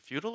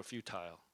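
First: Said in the usual way. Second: "futile" as FEW-tile, with a long "i"; alternative pronunciation. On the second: Shown as a demonstration. Preacher asking which pronunciation fits, "futile" ending in "-tile". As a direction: say "futile" so the end rhymes with "tile". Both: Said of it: "futile sounds more emphatic".

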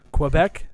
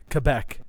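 First: "Quebec?" with a rising question tune. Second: "Quebec." said kuh-BECK with a hard K and falling tune. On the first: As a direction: ask "Quebec?" unsure of the sound. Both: Shown as a demonstration. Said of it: "How do you say it?".

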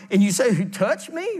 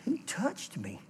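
First: Said in the usual way. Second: Softer, searching "Who touched me?"; Jesus quietly looks round the crowd; hushed. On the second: Acted. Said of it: "He's going".

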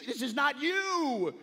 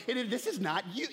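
First: Higher, slower plea on this is not you; rising urgent plea to dad; pleading. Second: Said in the usual way. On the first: Retold or imitated.

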